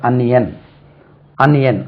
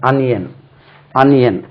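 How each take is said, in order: No difference in how they are said.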